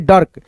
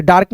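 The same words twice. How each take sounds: First: डर्क with a short "uh" before the r, quick and clipped; correct short vowel. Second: डार्क with a long open "aa", shown as the wrong way; wrong long vowel. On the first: Teacher giving students the right reading, short "uh". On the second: Teacher showing students the wrong reading, long "aa". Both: Shown as a demonstration. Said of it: "ऐसे डार्क नहीं".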